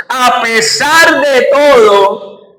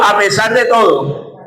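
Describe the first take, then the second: First: "a pesar de todo" drawn out slowly, every word leaned on; emphatic refrain. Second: Said in the usual way. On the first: Shown as a demonstration. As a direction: lead the crowd, slow and weighty on "pesar". ("a pesar de todo" lento y enfático, marcando "pesar") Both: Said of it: "diga conmigo".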